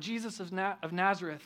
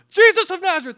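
First: It is said hesitantly, with a stumble. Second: It is said confidently and plainly.

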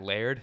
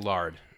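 First: The name rhymes with 'cared'. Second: The name rhymes with 'card'. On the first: The speaker calls it right. "but Pat Laird" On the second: The speaker calls it wrong. "I want to say Lard"

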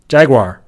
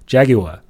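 First: It is said with an American, r-colored accent. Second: It is said with a British accent.

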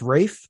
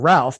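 First: The name is said like Rafe. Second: The name is said like Ralph. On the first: The speaker calls it right. "but it's Rafe" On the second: The speaker calls it wrong. "Like it looks like Ralph"

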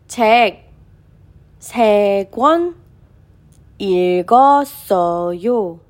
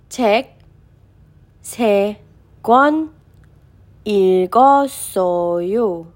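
Both takes have the same delivery.

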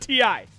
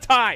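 First: It is said as two letters, T-I. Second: It is said as one word, 'tie'. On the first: The speaker calls it right. "It is a TI" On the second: The speaker calls it wrong. "It is not a tie"

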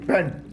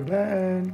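First: It sounds like an angry scolding. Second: It sounds like a friendly call to come.

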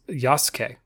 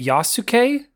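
First: The middle u vowel is silent or barely heard. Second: The middle u vowel is fully pronounced. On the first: The speaker calls it right. "The U is either silent or barely pronounced" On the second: The speaker calls it wrong. "I've been calling it Yasuke this whole time"

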